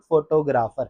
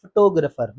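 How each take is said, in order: First: फोटोग्राफर as FO-to-GRAA-far; full vowels throughout फोटोग्राफर; wrong pronunciation. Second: फोटोग्राफर as fuh-TO-gruh-fer; correct pronunciation. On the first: (फोटोग्राफर ग़लत, फ़ो-टो-ग्रा-फ़र) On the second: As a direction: stress TO, reduce GRAA to gruh in फोटोग्राफर. (फोटोग्राफर सही, फ़-टो-ग्रफ़र) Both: Shown as a demonstration. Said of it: "not फोटोग्राफर".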